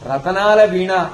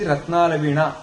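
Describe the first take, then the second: First: An extra vowel splits the t and n sounds. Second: The t and n sounds join with no vowel. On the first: This is the popular form. "రతనాల వీణ అనేది బాగా ప్రాచుర్యం పొందింది" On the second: This is the form that fits the meter. "శాస్త్రాన్ని అనుసరించి రత్నాల వీణ అనడమే సరైంది"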